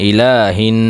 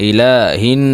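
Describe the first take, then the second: Both takes have the same delivery.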